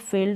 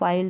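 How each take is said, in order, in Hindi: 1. स्वर लंबी 'ee' ध्वनि है। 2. स्वर 'eye' ध्वनि है। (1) "बड़ी के रूप में आप इसको प्रोनाउंस करेंगे" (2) "इसको फाइल्ड नहीं पढ़ेंगे"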